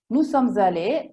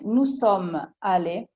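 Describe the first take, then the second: First: The s of sommes is linked into allés. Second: The s of sommes is not linked to allés. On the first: It is more formal and elegant. "è un po' più elegante" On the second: It is plainer, everyday speech. "Nella lingua parlata si può dire"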